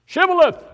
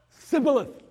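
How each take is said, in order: First: "Shibboleth" tried much higher and louder; straining for shibboleth. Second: "Sibboleth" with s for sh, higher; failing with s. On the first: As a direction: reach hard for "Shibboleth". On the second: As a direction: slip back to "Sibboleth". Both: Shown as a demonstration.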